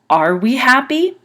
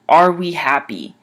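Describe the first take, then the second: First: The last word goes up in pitch. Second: The last word stays level without going up. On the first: "make the last word go up in the sound" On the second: "So instead of saying"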